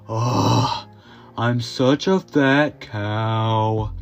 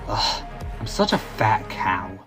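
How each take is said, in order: First: It is said in a drawn-out, emo-like voice. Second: It is said plainly, without drawn-out words.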